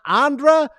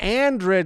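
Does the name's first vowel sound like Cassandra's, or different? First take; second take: different; like Cassandra. First: The first vowel differs from the one in Cassandra. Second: The first vowel sounds like the one in Cassandra. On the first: The speaker calls it wrong. "It's not Andra" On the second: The speaker calls it right. "It's like Cassandra"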